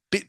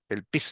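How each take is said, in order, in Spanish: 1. La palabra termina en sonido t. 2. La palabra termina en sonido s. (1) "es el pit" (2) "no es el pis de, de ir al baño"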